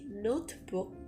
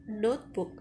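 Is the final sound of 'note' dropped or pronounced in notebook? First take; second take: pronounced; dropped. First: The final sound of 'note' is clearly pronounced. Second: The final sound of 'note' is dropped. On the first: The speaker calls it wrong. "It will become very weird when we say notebook" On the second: The speaker calls it right. "Instead, we say notebook"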